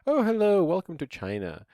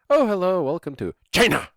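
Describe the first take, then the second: First: China is pronounced in an ordinary way. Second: China is pronounced in an imitated, unusual way. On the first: "like a normal person" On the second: "doesn't pronounce it like a normal person"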